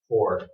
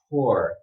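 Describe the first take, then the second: First: It is said quickly, with a reduced vowel. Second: It is said slowly, one sound at a time. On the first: "When you speed up in a natural conversation, this word would actually sound more like this" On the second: "if you slow down and do it one sound at a time"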